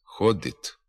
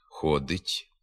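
First: The final t sound is hard. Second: The final t sound is soft. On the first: This is a dialectal form. The speaker calls it wrong. "Тверда вимова «т» у цих позиціях" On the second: This is the literary standard form. The speaker calls it right. "звук «т» вимовляється м'яко"

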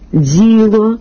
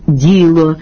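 First: The first consonant has a hissing dz sound. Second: The first consonant is a plain soft d. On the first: The speaker calls it wrong. "поширена серед певної публіки вимова" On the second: The speaker calls it right. "замість"

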